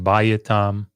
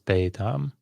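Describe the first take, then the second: First: The first vowel keeps the full diphthong. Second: The first vowel is shifted and shortened. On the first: The speaker calls it wrong. "instead of saying bayatam" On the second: The speaker calls it right. "it's beitam"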